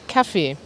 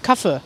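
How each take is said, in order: First: The final vowel is long. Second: The final vowel is short. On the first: This is the usual pronunciation. "normalerweise spricht man es so aus" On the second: This is heard in some regions. "In manchen Regionen hört ihr auch manchmal ein kurzes E"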